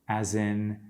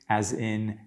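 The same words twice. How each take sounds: No difference in how they are said.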